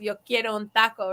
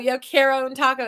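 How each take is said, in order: First: The vowels sound like Spanish vowels. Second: The vowels sound like English vowels. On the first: The speaker calls it right. "getting those vowel sounds correct" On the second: The speaker calls it wrong. "pronounce it like it's English"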